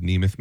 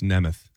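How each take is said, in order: First: "Nemeth" with a long ee, NEE-meth; mistaken name pronunciation. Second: "Nemeth" with a short e, NEM-eth; correct name pronunciation. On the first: Host owns up to his slip, long-ee "Nemeth". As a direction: say "Nemeth" with the first vowel as in "knee". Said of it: "Well, I said Nemeth, maybe?". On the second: Host corrects how a wrestler's name is said, short-e "Nemeth". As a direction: say "Nemeth" with the first vowel as in "hem". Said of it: "It's pronounced Nemeth". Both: Shown as a demonstration.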